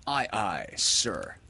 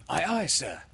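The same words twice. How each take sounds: First: Measured model of a sailor's reply; steady, unhurried order to repeat; instructing captain. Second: Put-on high-pitched boy's sailor reply; high, quick childlike compliance; obedient boy. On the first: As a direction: dictate it firmly for the boy to repeat. Peter tells John what to say. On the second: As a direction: repeat it high, like a boy obeying his captain. John repeats it to Peter. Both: A narrator's reading.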